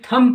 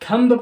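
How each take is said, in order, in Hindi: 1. m के बाद b की ध्वनि नहीं बोली जाती। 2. m के बाद b की ध्वनि बोली जाती है।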